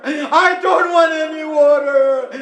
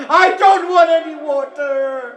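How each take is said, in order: First: High lamenting cry, repeated; weeping plea. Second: High lamenting cry, first take; weeping plea. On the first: Sakina to her uncle, repeated weeping plea. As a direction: sob it again, more desperate. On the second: Sakina to her uncle, high weeping plea. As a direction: sob the refusal. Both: Acted. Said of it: "And Sakina says".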